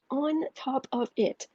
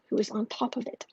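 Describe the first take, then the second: First: Slow, drawn-out "On top of it"; emphatic repeat. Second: Said in the usual way. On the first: Real, not acted.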